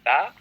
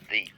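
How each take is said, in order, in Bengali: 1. স্বরধ্বনিটি একটি ছোট 'uh' ধ্বনি। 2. স্বরধ্বনিটি একটি লম্বা 'ee' ধ্বনি। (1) "যেটাকে আপনি দা বলেন" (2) "ওইটাকে আবার দিও বলা যায়"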